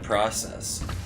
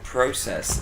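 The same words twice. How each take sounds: First: The word is pronounced the American way. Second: The word is pronounced the British way. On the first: This is how the speaker expected it to be said. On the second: This is how the character said it.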